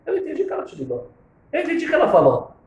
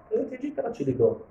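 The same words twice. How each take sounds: First: Much higher, pressing each word; higher emphatic insistence; emphatic repeat. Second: Said in the usual way. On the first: Retold or imitated. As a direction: insist on the point firmly. Rabbi repeats his point, raised.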